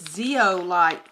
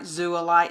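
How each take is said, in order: First: The word begins with two vowels, 'zee-oh'. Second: The word begins with a single 'zoo' sound. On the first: The speaker calls it right. "It's zeolite" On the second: The speaker calls it wrong. "I'm not saying it right"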